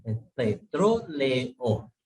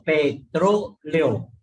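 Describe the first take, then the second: First: Es petróleo very slow and softer, vowels separate; slow quiet model. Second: Petróleo very slow, e and o kept apart; slow model word. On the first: Teacher repeating petróleo slowly for students. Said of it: "no es petro". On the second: Teacher demonstrating hiatus in petróleo to students. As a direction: spell out petróleo slowly by sound. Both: Shown as a demonstration.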